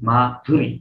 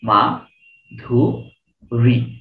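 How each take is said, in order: First: The name is said smoothly as one unit. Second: The name is split into three parts with pauses. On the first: "আপনি একবারই বলছেন মাধুরী" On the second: "আরো ভাঙা যাবে"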